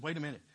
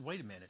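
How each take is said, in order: First: A hint of an eager boy in his usual voice; lightly voiced young David. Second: A hint of a calm older king, lower and softer; lightly voiced King Saul. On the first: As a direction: push back like a keen teenager. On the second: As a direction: hold the boy back gently, a touch lower. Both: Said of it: "He said".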